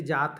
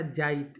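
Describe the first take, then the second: First: Said in the usual way. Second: "जाइत" with an i glide before the t; Nagpuri stressed form. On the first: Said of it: "इस पर बलाघात का होता है". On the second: Shown as a demonstration. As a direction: stress the "jaa" and slip in i: "जाइत". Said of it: "इसमें थोड़ा जोर". ("जाइत" में त से पहले इ बोलें)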